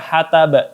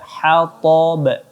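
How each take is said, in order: First: The t sound is thin and light. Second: The t sound is thick and heavy. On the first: The speaker calls it wrong. "tidak boleh dibaca hatab" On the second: The speaker calls it right. "tapi dibaca hatab"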